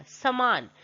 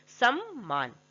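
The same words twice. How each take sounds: First: समान with a single "m"; wrong form. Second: सम्मान with a held double "m"; correct form. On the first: Teacher reads the misspelt word, समान with single "m". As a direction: say sa-maan, one light "m" in समान. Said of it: "ये समान नहीं है". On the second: Teacher spells out the correction, सम्मान with doubled "m". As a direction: split it sam-maan, both m's sounded in सम्मान. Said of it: "ये क्या है, सम्मान है". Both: Shown as a demonstration.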